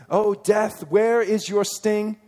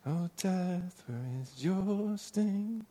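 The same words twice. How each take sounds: First: "O death, where is your sting" declaimed loud and high, slowing at the end; proclaimed reading. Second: "Oh, death, where is your sting" sung soft and very slow; sung softly. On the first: Preacher reading the verse aloud to the church, loud and slow. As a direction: ring it out like scripture. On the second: Preacher singing the familiar song line to the congregation, soft and slow. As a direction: croon it like the hymn. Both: Shown as a demonstration. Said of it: "we sing that song a lot".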